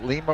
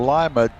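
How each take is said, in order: First: Lima said LEE-ma; first pronunciation option. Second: Lima said LIE-ma; alternative pronunciation. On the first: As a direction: say Lima with a long "ee" in the first syllable. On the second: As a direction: say Lima with "lie" as the first syllable. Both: Shown as a demonstration. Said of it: "how to pronounce that name".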